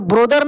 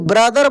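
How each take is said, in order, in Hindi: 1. पहला स्वर 'go' के 'o' जैसा बोला जाता है। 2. पहला स्वर 'cup' के 'u' जैसा बोला जाता है। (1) "ब्रोदर नहीं" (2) "ब्रदर बोला जाता है"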